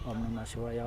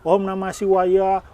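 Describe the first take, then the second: First: It is said in a low murmur. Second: It is said loudly and clearly. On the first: The recitation is kept quiet and inward. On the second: The recitation is voiced out loud. "cara pengucapannya keras-keras"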